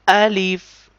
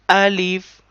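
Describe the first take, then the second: The two takes are said the same way.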